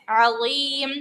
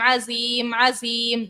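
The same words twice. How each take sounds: First: Right zoa in عظیم; correct zoa. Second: عظیم said with a plain z sound; wrong za. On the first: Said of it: "وا ہے". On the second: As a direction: demo the mistake, عظیم with a za. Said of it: "زا سے پڑھ رہی ہوتی ہیں". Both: Shown as a demonstration.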